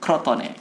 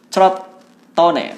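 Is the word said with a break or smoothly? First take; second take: smoothly; break. First: The word is said in one smooth run. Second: The word is broken by a short gap. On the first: The speaker calls it right. "langsung ya. Nggak usah pakai sela" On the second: The speaker calls it wrong. "bukan seperti yang sering diucapkan oleh teman-teman Juventini"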